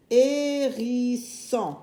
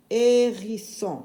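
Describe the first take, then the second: First: Very slow, drawn-out "Hérisson"; "Hérisson" sounded out at half speed; syllable by syllable. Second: "Hérisson" a little slowly, first syllable held; measured teacher's "Hérisson", falling at the end; moderately drawn out. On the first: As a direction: stretch each syllable of "Hérisson" for young readers. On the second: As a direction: say "Hérisson" clearly, stretching the opening vowel. Repeats the word less stretched. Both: Shown as a demonstration.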